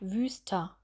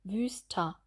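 First: The word ends in an open a-like vowel. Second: The same.

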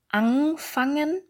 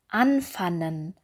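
First: The ng sound is said twice. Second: The ng sound is dropped for a plain n. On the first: "das heißt zweimal das ng gesagt" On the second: "also das ng weggelassen und das n artikuliert"

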